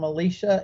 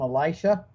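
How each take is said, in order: First: The name is said the usual Catholic way. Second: The name is said the usual Protestant way. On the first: This is how Catholics usually say the name. "Catholics usually call him Elisha" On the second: This is how Protestants usually say the name. "as a Protestant, I grew up calling him Elisha"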